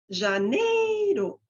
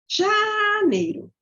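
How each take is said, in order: First: The middle syllable is high and shrill. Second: The first syllable is high and shrill. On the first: "Daí eu posso colocar no meio" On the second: "eu falo uma sílaba com um agudinho"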